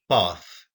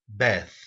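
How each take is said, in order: First: It is said with a British accent. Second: It is said with an American accent. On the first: "British English" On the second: "American English"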